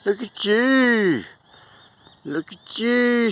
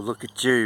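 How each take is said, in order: First: Slow sing-song admiration; slow high coo. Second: Said in the usual way. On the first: Real, not acted. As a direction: coo it slowly like talking to a pet. Cooing at a bird on fence.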